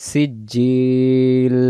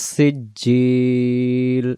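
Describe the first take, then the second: The two takes are said the same way.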